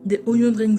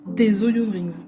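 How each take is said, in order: First: The words are slurred and not clearly articulated. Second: Each word is pronounced carefully and distinctly. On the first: The speaker calls it wrong. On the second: The speaker calls it right.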